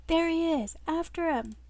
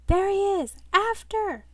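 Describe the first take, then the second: First: High, mildly shouted chase cry; urgent call. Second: High, loud pursuit yell; urgent shout. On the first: Men in suits chasing a runaway, urgent calling. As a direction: call out the chase, a bit restrained. Reader redoes the chase line. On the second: Men in suits chasing a runaway, urgent shouting. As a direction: call out the chase at full voice. Henchmen spot man and give chase. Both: Acted.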